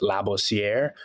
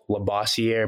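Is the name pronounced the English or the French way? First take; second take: French; English. First: The name is said with French pronunciation. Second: The name is said with English pronunciation. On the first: "if you're speaking to Haitians, French, you know, they'll know to pronounce it Labossier" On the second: "we just used English pronunciation with Labossier"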